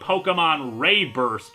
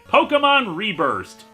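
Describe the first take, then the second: First: The first syllable of Reburst sounds like 'ray'. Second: The first syllable of Reburst sounds like 'ree'. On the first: The speaker calls it right. "it has the accented E in its name, so it should technically be" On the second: The speaker calls it wrong. "it's actually kind of inaccurate to pronounce it like that"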